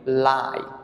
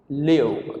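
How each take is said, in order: First: The vowel is long, rhyming with 'five'. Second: The vowel is short, rhyming with 'give'. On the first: It is used as an adjective. "We pronounce it lie" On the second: It is used as a verb. "The verb of this is live"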